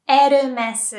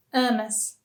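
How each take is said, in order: First: "Hermes" loudly as "erumesu"; Japanese pronunciation. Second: Said in the usual way. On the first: Shown as a demonstration. English then Japanese brand demo.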